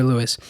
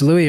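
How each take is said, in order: First: Louis said as "LOO-iss", S sounded; sounded final S. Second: Louis said as "LOO-ee", no final S; silent final S. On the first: Reader unsure of the name, Louis pronounced "LOO-iss". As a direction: close Louis on a clear S. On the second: Reader unsure of the name, Louis pronounced "LOO-ee". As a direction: end Louis on an open "ee" sound. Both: Shown as a demonstration. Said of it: "I don't know if it's Louis or Louis".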